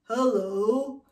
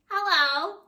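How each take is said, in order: First: It is said deep, from the belly. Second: It is said with a nasal resonance.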